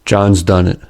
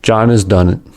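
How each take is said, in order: First: Has is contracted to a single s sound. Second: Has is said as a full word.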